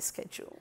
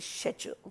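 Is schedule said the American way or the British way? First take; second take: American; British. First: The word is said the American way. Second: The word is said the British way. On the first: This is the usage the station rejects. The speaker calls it wrong. "we don't say schedule ... Schedule is a nasty Americanism" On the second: This is the usage the station expects. The speaker calls it right. "we say schedule"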